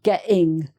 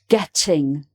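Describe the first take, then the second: First: The middle T sound is left out. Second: The middle T is clearly pronounced. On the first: The speaker calls it wrong. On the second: The speaker calls it right.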